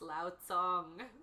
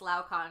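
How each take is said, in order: First: The second word begins with a ts sound. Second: The second word begins with a k sound. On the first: The speaker calls it right. "that C on the front of there is pronounced like a TS" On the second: The speaker calls it wrong. "I've been loving this Lao Kong"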